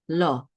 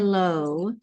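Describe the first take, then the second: First: The O vowel is cut short. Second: The O vowel is drawn out longer. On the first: The speaker calls it right. "It's this shorter O sound" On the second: The speaker calls it wrong. "Don't say Lo"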